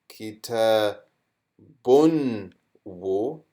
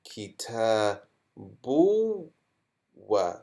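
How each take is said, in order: First: A clear n sound comes before the w. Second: The n sound merges into the following w. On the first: "before it was" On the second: "So how will we read this?"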